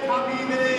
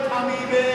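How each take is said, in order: Both takes have the same delivery.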